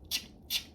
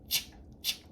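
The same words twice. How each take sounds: Both takes have the same delivery.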